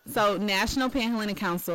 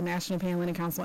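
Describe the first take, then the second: First: Council name broken down for the listener; slower, clearer. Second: Council name rattled off quickly; rapid-fire. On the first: Director repeating for a host who missed it, slower. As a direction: spell it out at a measured pace. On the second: Director naming one of four councils, rapid-fire. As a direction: run the words together at speed. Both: Real, not acted. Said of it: "say that a little slower".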